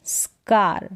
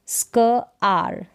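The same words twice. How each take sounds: First: Said in the usual way. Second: स्क आर split by a pause; two separate parts, स्क and आर; sounded out. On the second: Shown as a demonstration. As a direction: say स्क, wait, then आर. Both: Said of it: "इसको pronounce करेंगे स्क".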